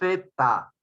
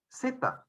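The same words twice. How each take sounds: First: The consonant is made with the tongue between teeth. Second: The consonant is made like a hissing s sound. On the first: This is how it is said in Spain. "porque interdental, entre tus dientes" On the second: This is how the local speakers say it. "¿Nosotros cómo pronunciamos? ... con S"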